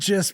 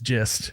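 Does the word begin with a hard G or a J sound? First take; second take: hard G; J. First: It begins with a hard G sound. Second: It begins with a J sound. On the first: This is how the spelling looks. "It's spelled gist" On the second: This is how it is actually said. "but pronounced gist"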